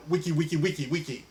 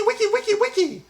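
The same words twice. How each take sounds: First: Said in the usual way. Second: Record scratch chant. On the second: Pretend.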